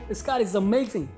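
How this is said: It is said with excited happiness.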